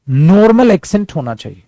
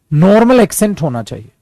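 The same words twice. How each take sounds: The two takes are said the same way.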